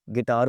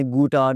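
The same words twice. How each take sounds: First: "गिटार" said as "gi-tar"; silent U. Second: "गुटार" said as "goo-tar"; U sounded. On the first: Teacher giving the usual word, U silent. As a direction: drop the U, "गिटार". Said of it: "गिटार होता है जी". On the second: Teacher showing what nobody says, U sounded. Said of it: "कभी आपने गुटार नहीं कहा". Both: Shown as a demonstration.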